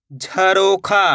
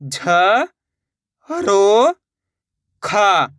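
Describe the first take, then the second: First: Said in the usual way. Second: "झ ... रो ... खा", each drawn out on its own; letter by letter. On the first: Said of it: "शब्द का उच्चारण". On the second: Shown as a demonstration. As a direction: sound out "झ रो खा" with long pauses. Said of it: "एक एक अक्षर का उच्चारण". ("झ ... रो ... खा" हर अक्षर अलग, खींचकर)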